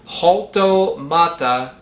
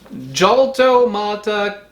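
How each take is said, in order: First: It begins with a light breathy h sound. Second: It begins with an English j sound. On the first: "pronounce the J as in the J in Mexican Spanish" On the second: "pronounce it wrong"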